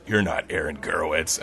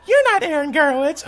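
First: Low-pitched imitation of a challenging man; deadpan low male challenge; accusing man. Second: High-pitched imitation of an accusing girl; mock-indignant high voice. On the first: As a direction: state it low, without raising the voice. Man challenges him in bathroom. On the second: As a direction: challenge him in a high female voice. Girl challenges him.

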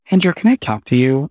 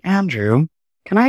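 First: Said in the usual way. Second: Lightly British imitation of a man; British accent. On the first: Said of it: "I don't know why I just gave him a British accent". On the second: Dance supervisor approaches Andrew during tech, British accent. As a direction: put on a hint of British, slightly higher. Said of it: "gave him a British accent".

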